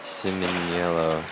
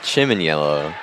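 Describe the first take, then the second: First: The name begins with an 's' sound. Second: The name begins with a 'ch' sound. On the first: This is how the player's own pronunciation was reported. "But I guess Siminiello" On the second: This is how the broadcaster would have guessed it. "I would have pronounced it, like Chiminiello"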